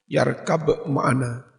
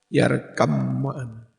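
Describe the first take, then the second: First: The first word ends with a clear b sound. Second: The b sound merges into the following m.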